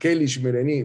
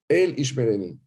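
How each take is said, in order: First: The first word begins with a K sound. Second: The first word begins with a vowel sound. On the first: The divine name is deliberately altered. The speaker calls it wrong. "ponen una K" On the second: The divine name is said as it is. The speaker calls it right. "Los sefaradín, cuando pronuncian el nombre de Dios, pronuncian El Ishmereni"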